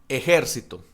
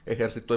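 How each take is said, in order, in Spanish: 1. El acento está en la segunda sílaba. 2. El acento está en la última sílaba. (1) "esdrújulas, o sea que tiene la tilde en la antepenúltima" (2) "Ejercitó en pasado"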